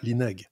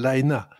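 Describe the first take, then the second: First: The name ends with a hard g sound. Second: The name ends in a vowel, with no g. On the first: The speaker calls it wrong. "absolument pas Linag" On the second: The speaker calls it right. "il s'appelait Michael Laina"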